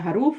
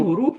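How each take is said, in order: First: The first vowel is an 'a' sound. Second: The first vowel is an 'u' sound. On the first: The speaker calls it wrong. "हरूफ ना बोला करें" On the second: The speaker calls it right. "देखिए हुरूफ होता है"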